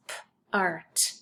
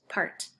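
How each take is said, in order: First: "p-art" broken into p, then art; sounded out. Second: Said in the usual way. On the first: Shown as a demonstration. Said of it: "the second syllable is p-art". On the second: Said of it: "the second syllable is".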